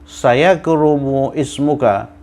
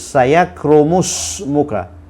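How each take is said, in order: First: The 'i' sound before 'smuka' is pronounced. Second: The 'i' is dropped and the words run together.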